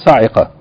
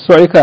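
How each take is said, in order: First: The first vowel is an 'a' sound. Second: The first vowel is an 'u' sound. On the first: "and in some of them sa'iqa" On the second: "with the vowelling of su'iqa"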